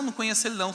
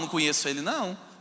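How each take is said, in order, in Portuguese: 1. A negação soa leve e despreocupada. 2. A negação soa séria e insistente. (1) "não foram assim" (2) "foram sérias"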